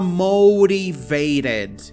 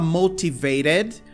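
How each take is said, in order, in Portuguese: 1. O primeiro t é um flap rápido. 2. O primeiro t é um t claro e nítido. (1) "você pode fazer o flap aqui também" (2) "você pode falar motivated"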